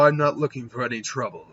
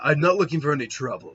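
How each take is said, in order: First: It is said in his ordinary voice. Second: It is said imitating Ains's voice.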